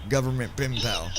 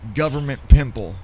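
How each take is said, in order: First: The last word sounds like pen pal. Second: The last word sounds like pimple. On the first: This is the name as intended. The speaker calls it right. "it's supposed to be pen pal" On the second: A screen reader misreads the name this way. The speaker calls it wrong. "N V D A says uh"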